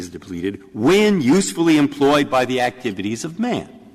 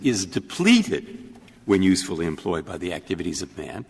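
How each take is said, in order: First: The words usefully employed carry the main emphasis. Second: The word depleted carries the main emphasis. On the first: The definition refers to how the water is used. "you're saying read it with different emphasis" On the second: The definition refers to amounts of water. "if you emphasize the word depleted"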